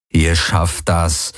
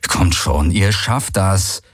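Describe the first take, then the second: First: Slow, low inner encouragement; quiet urging thought. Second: Slow, insistent encouragement; urging. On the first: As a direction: think it slowly to yourself. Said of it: "dachte er". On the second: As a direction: coax them on slowly. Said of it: "an Uru und Ara gerichtet". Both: Acted.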